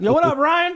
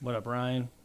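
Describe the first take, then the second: First: It is said with lots of energy. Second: It is said with little energy.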